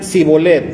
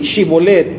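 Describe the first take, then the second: First: The word begins with a plain s sound. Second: The word begins with a sh sound. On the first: "decían Sibolet" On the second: "di Shibolet"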